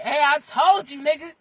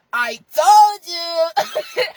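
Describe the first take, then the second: First: Louder, higher mock I-told-you-so; gloating. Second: TOLD YOU stretched long, high and loud; drawn-out gloating. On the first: Acting out someone back to say I told you so, gloating. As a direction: crow it at them. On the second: Retold or imitated. Rubbing it in after coming back, drawn-out gloating. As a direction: crow it slowly, rubbing it in.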